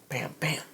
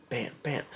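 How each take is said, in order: Both takes have the same delivery.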